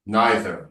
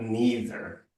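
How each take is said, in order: First: "Neither" with an eye vowel, NYE-ther; NYE-ther pronunciation. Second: "neither" with a long ee, NEE-ther; NEE-ther pronunciation. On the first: Coach correcting a student, "Neither" modelled as NYE-ther. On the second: Coach showing the pronunciation to reject, "neither" as NEE-ther. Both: Shown as a demonstration. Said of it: "if you can't pronounce it properly".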